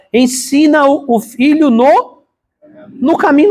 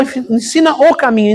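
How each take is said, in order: First: Ensina o filho NO caminho, slow and high, leaning on "no"; stress on no caminho. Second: Said in the usual way. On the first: Shown as a demonstration. Pastor stresses to the church how Solomon words it, leaning on "no". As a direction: stretch out "no caminho", pressing the word "no". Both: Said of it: "não fala, "Ensina o caminho".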